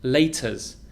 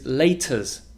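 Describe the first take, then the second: Both takes have the same delivery.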